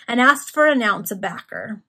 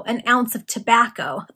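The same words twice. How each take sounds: First: "backer" for tobacco, first syllable dropped, ending in -er; dialect pronunciation. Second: Said in the usual way. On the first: A narrator's reading. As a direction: say "backer" as the dialect spelling reads. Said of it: "It's written, uh, in, like, a phonetic version". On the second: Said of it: "a phonetic version of".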